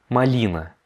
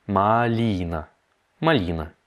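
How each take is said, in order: First: Said in the usual way. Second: "малина" drawn out syllable by syllable; slowed-down model. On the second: Shown as a demonstration. Teacher breaks down the Russian for raspberry, very slow. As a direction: stretch "малина" slowly, long "ли".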